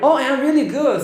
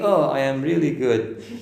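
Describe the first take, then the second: First: The voice goes up, bright and lively. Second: The voice stays low, flat and dull. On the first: The speaker calls it right. "Your voice goes up" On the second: The speaker calls it wrong. "You cannot be"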